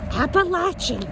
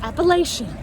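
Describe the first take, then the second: First: It uses the local pronunciation of the name. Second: It uses a non-local pronunciation of the name. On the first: The speaker calls it right. "It's Appalachian. You can Google it" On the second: The speaker calls it wrong. "not Appalachian"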